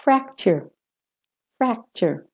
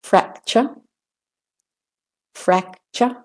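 First: "fracture" with American r ending, high then falling; American er closing "fracture". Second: "Fracture" ending in r-less "chuh", rising; British-Australian schwa closing "Fracture". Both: Shown as a demonstration. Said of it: "British and Australian first".

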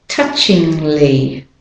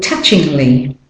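First: "touchingly" slowed, lingering on the ng before the l; slow demonstration. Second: Said in the usual way. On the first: Shown as a demonstration. Teacher showing learners the N G to L join, slow "touchingly". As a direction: stretch "touchingly" out, gliding from ng to l. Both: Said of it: "you're going from N G".

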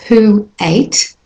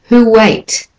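First: Said in the usual way. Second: "who ate" joined with a w glide, "huweit"; linked "who ate". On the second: Shown as a demonstration. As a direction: flow "who ate" together. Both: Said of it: "when I link it".

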